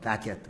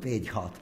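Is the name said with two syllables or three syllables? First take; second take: silent h; sounded h. First: The name is said as 'Badge-it', with no h. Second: The name is said as 'Bej-hot', sounding the h. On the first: This is how the English say it. The speaker calls it right. "but I now gather it's called Badgett" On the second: This is how it was said in Calcutta. The speaker calls it wrong. "What I use in Calcutta thought of is called Bejhot"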